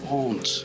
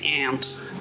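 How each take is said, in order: First: It is said in a posh English accent. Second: It is said in an American accent. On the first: "posh English people say aunt" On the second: "Americans say aunt"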